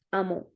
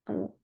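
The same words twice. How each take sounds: First: Said in the usual way. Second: Amour with a soft, weak R. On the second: Shown as a demonstration. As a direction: let the R in Amour barely touch. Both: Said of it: "prononcé doucement ou faiblement".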